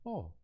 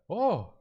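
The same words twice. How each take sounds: First: It sounds like a mild, neutral surprise. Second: It sounds like a strong, big surprise.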